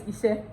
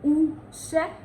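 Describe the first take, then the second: First: "Iṣẹ́" as ee-sheh; Yoruba pronunciation. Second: "Uṣẹ́" as oo-sheh; Ondo pronunciation. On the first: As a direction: open "Iṣẹ́" with an ee. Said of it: "The Yoruba is". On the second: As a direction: open "Uṣẹ́" with a clear oo. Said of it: "The Ondo dialect is". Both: Shown as a demonstration.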